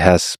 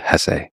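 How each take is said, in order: First: The name is said as one syllable. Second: The name is said as two syllables. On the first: Some other people say it this way. "I've heard some people say" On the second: The speaker has always said it this way. "my whole life I've always said"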